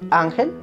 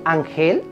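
First: The stress is on the first syllable. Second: The stress is on the last syllable. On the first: The speaker calls it right. "lleva tilde si no termina en NSO vocal" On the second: The speaker calls it wrong. "No, ¿cierto? Así no es"

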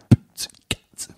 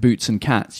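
First: It is whispered without using the vocal cords. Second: It is spoken with full voice. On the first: "you don't use your vocal cords" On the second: "instead of saying"

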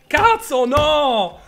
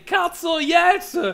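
First: It is said in an angry tone. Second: It is said in a happy tone.

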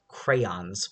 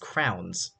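First: The word sounds like 'crayons'. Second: The word sounds like 'crowns'. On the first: "I know that it's the proper way to say it is crayons" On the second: "but it's crowns"

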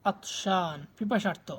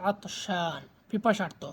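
Both takes have the same delivery.

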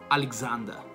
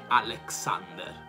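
First: The x sounds like g followed by z. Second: The x sounds like k followed by s. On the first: The speaker calls it right. "La stessa cosa succede per il nome Alessandro" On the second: The speaker calls it wrong. "non è Alexander"

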